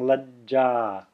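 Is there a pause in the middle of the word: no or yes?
yes. The word has a short silent pause inside. The speaker calls it right. "Notice how I'm putting a pause there"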